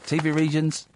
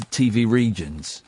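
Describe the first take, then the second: First: "T V regions" echoed higher as a question; higher, questioning repeat of "T V regions". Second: Said in the usual way. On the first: Real, not acted. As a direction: lift "T V regions" into a puzzled query.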